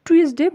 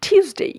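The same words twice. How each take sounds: First: "টিউসডে" as "tu-es-de", short ending; wrong pronunciation. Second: "টিউসডে" as high "TYOOS-dey"; correct pronunciation. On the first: Teacher quoting what we will stop saying, everyday mispronunciation. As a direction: say "টিউসডে" like "too-ES-de". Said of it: "টিউসডে বলবো না". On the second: Teacher giving the replacement, emphatic correct pronunciation. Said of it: "এটাকে বলবো". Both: Shown as a demonstration.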